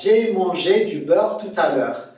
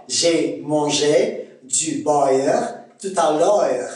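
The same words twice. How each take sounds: First: Said in the usual way. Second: Slow, deliberate Québécois accent; Québécois demo, gliding "beurre" and "l'heure" into a-eur. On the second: Shown as a demonstration. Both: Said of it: "On va dire quoi?".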